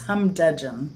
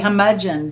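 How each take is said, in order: First: The word is said with a d after hum. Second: The word is said without a d after hum. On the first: The speaker calls it right. "but it's humdudgeon" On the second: The speaker calls it wrong. "I want to say humudgeon"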